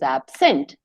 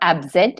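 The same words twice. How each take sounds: First: The middle consonant is a hissing s sound. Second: The middle consonant is a buzzing z sound. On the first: The speaker calls it right. "it is absent" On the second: The speaker calls it wrong. "it is not absent"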